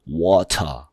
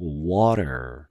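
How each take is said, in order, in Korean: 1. 가운데 자음은 분명한 T 소리예요. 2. 가운데 자음은 부드러운 D 같은 flap이에요. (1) "이렇게 발음 안 하고" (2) "이 소리가 D자로 바뀌는"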